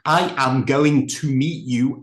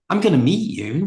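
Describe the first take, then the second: First: Each opening word is pronounced fully and separately. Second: The opening words are reduced and run together. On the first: "It's not" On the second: "I'm reducing that down"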